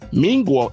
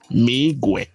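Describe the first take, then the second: First: The word ends with an o vowel. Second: The word ends with an e vowel. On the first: The speaker calls it wrong. "Mingwo is completely wrong" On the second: The speaker calls it right. "the correct word is Migwe"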